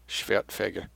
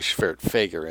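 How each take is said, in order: First: The name is said with German sounds. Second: The name is said with English sounds. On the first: "W is a V in German pronunciation" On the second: "probably Schwertfeger in English"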